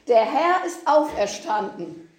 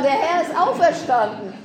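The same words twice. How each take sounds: First: It is said in a calmer, less cheerful way. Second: It is said in a brighter, more cheerful way.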